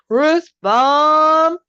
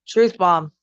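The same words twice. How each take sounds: First: It is said forcefully, with strong conviction. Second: It is said plainly, without much conviction.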